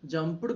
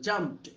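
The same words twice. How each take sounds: First: The ending is said as an extra syllable. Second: The ending is said as a plain t. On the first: The speaker calls it wrong. "jumped కాదు" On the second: The speaker calls it right. "పీతో end అయితే తర్వాత వచ్చే వాటిని టాలా పలకాలి"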